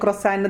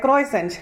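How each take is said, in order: First: The first vowel sounds like 'o', ending 'sand'. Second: The first vowel sounds like 'oy', ending 'sent'. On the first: The speaker calls it right. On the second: The speaker calls it wrong.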